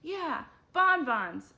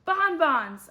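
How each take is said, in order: First: Slow, loud and high cheer; eager agreement. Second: Loud, high burst of excitement; shouted. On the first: The whole class agreeing together, slow and loud. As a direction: stretch it out like a happy crowd. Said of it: "everybody agreed". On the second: Arlo shouting his great idea to the class, loud. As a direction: blurt it out as a big shout. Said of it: "I shouted". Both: A narrator's reading.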